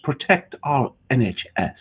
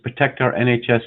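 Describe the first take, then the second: First: It is said in a pompous English accent. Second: It is read in a plain, ordinary voice.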